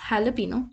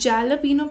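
First: The word begins with an h sound. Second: The word begins with a j sound. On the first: The speaker calls it right. "The correct pronunciation is हैलापीनो" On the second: The speaker calls it wrong. "लोग इसको जैलापीनो pronounce करते हैं"

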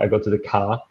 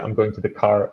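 First: It is said imitating a northern English accent. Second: It is said in his usual neutral accent.

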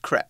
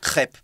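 First: The word is said in a more French way. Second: The word is said in a less French way. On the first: This is how it is said in the UK. The speaker calls it right. "in the UK, we say crepe, like the French" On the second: This is not how it is said in the UK. The speaker calls it wrong. "Not crepe"

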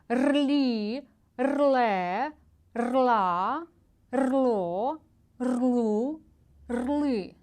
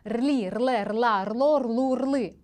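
First: The syllables are read slowly. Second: The syllables are read quickly. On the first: "Пробуємо повільно" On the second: "І швидше"

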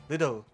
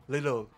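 Both takes have the same delivery.

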